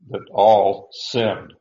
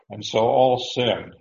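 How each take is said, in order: First: Slow and loud, leaning on "all"; stress on ALL. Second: Said in the usual way. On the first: Shown as a demonstration. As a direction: drag out "all" to hammer it home. Preacher stressing scripture phrase.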